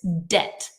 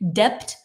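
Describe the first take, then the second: First: The b sound is not pronounced. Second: A b sound is pronounced. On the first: The speaker calls it right. "It's silent. We do not say it" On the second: The speaker calls it wrong. "If you hear someone saying debt, they are out of depth"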